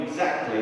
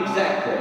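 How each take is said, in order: First: Said in the usual way. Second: "exactly" pitched higher and hit harder; emphatic, raised "exactly"; stress on exactly. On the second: Acted. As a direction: drive home the word "exactly". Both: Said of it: "and I mean exactly".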